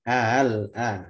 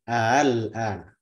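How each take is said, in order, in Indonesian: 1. Hamza kedua dibaca dengan tasil, mendekati vokal. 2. Hamza kedua dibaca dengan tasil, mendekati vokal.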